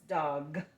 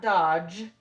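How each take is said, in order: First: The word ends with a hard g sound. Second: The word ends with a soft j sound. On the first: The speaker calls it right. "it's dog" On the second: The speaker calls it wrong. "So it's not dodge"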